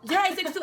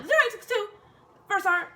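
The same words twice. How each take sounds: First: Shaky, nervous high answer; nervous stutter. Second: High, loud, nervous repeat; nervous stutter. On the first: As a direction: blurt the numbers out scared. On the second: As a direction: force the numbers out scared. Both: Retold or imitated. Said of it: "I swear I stutter".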